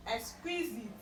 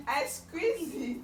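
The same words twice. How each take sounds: First: Said in the usual way. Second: Slow, louder, stretched teasing threat; drawn-out teasing threat. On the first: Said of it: "repeated teasing takes". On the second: Acted. Mother teasing toddler with a slow mock threat. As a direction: tease the child by drawing it out.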